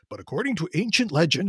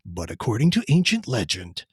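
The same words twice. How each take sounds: First: It is read in an ordinary speaking voice. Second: It is read in a deep, dramatic trailer voice.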